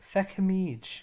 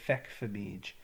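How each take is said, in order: First: The middle of the word has no F sound. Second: The middle of the word has an F sound.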